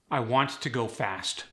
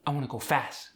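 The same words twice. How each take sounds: First: Said in the usual way. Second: Khmer accent, final consonants dropped; Khmer-accented with "fast" losing its T. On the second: Shown as a demonstration. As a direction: drop endings in a Khmer accent. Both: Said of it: "when consonants are dropped".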